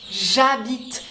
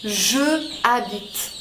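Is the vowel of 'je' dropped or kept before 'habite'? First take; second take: dropped; kept. First: The vowel of je is dropped and linked. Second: The vowel of je is kept separately. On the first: The speaker calls it right. "c'est beaucoup plus harmonieux" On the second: The speaker calls it wrong. "que de dire je habite"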